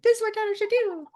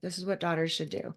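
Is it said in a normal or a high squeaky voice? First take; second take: high squeaky; normal. First: It is said in a high, squeaky helium voice. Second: It is said in a normal voice.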